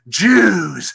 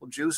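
First: The word is said with a hostile, loaded tone. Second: The word is said in a flat, neutral tone. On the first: The speaker resents the group. The speaker calls it wrong. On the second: The speaker is simply stating a fact. The speaker calls it right. "if you just say, ... no sensible person would think that you had any negativity about it"

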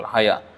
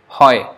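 First: It is said as two syllables. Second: It is said as a single syllable. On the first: The speaker calls it wrong. "that is not pronounced like that at all" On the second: The speaker calls it right. "especially we should take note of the last, like hoy"

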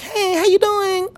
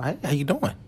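First: It is said in a put-on stereotypical voice. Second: It is said in his normal speaking voice. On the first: The speaker imitates a stereotyped woman. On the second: The speaker greets someone himself.

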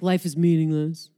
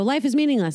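First: It is said in a sad, heavy tone. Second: It is said in a happy, relieved tone.

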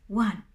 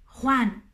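First: The word begins with a soft, non-guttural sound. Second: The word begins with a throaty, guttural sound. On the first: The speaker calls it wrong. "no Juan" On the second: The speaker calls it right. "tiene el mismo sonido delante de todas las vocales"

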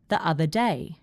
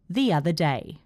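First: The words are joined smoothly with no added sound. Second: The words are joined with an added 'y' sound. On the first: "B is generally fine as well" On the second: "C is where we get the pronunciation phenomenon, intrusion"

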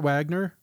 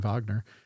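First: Wagner is said with an English pronunciation. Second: Wagner is said with a German pronunciation.

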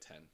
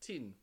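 First: It is said in the speaker's usual accent. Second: It is said in a New Zealand accent.

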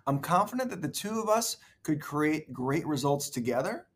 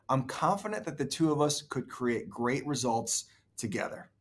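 First: The voice rises at the end. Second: The voice falls at the end. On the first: The speaker sounds unsure, as if asking. The speaker calls it wrong. "The first one kind of sounded like he was asking a" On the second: The speaker sounds sure of himself. The speaker calls it right. "He just sounded way more sure of himself"

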